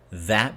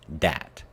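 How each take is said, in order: First: The word starts with a soft th sound. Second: The word starts with a hard d sound. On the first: The speaker calls it right. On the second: The speaker calls it wrong.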